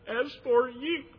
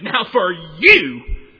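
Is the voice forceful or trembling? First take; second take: trembling; forceful. First: It is said with a trembling voice. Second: It is said forcefully and with vengeance. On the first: The speaker is deeply moved. "with a trembling in his voice" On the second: The speaker intends revenge. "with power and vengeance"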